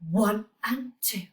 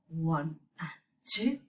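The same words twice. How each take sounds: First: The counting is at a medium pace. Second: The counting is at a slow pace.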